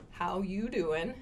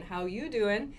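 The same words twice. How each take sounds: First: Slow flirty how YOU doing with a rise on you; Joey from Friends. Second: Rising flirty stress on "you"; a hint of the pickup line, you lifted; Joey from Friends. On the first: Retold or imitated. Teacher imitates the Friends line for learners. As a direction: lean on you, lightly mock-flirty. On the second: Teacher repeats the Friends line in that tune. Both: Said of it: "in that intonation".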